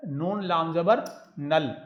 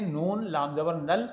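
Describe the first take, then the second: First: Each letter name spaced out slowly, नून लाम जबर नल; slow spelling out. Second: Said in the usual way. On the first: Shown as a demonstration. Teacher spelling a word slowly for students. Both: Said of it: "Urdu में लिखते हैं".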